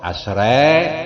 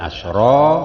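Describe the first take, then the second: First: The final vowel is tilted slightly toward e. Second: The final vowel is a plain open a.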